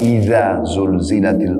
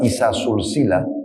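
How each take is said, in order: First: The consonants are voiced z sounds. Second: The consonants are voiceless s sounds. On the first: The earth is shaken violently. The speaker calls it right. "Cara membaca" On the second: It means being linked in a chain. The speaker calls it wrong. "kalau Anda baca isa sulsila"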